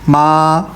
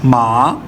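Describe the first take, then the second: First: The pitch stays high and level throughout. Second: The pitch dips low and then rises. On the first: "five को फाइव से कनेक्ट करूंगा ना, तो ये स्ट्रेट हो जाएगी" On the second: "टू से इसको नीचे लेके आता हूँ फर्स्ट पे ... फिर यहाँ से ऊपर चली गई"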